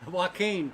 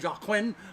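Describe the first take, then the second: First: The name begins with a 'w' sound. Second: The name begins with a 'j' sound. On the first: The speaker calls it right. "my daughter uh, uh, corrected me" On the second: The speaker calls it wrong.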